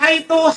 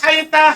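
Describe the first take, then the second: First: The word ends in an u vowel. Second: The word ends in an a vowel. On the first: "haitu bidom dengan dhamma" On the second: "Haita bilfat dengan fathah"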